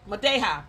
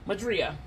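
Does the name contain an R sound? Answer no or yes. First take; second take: no; yes. First: The name is said without an R sound. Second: The name is said with an R sound. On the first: The speaker calls it right. "that's it" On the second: The speaker calls it wrong. "No, there's no R in it"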